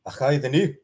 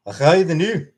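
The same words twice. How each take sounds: First: Scottish accent with a rising end; a second go at the Scottish accent. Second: A Scottish accent put on for chat; throwing on a Scottish accent. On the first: Scottish accent repeated for chat. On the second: Scottish accent shown off to chat. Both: Shown as a demonstration. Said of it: "there's my Scottish accent".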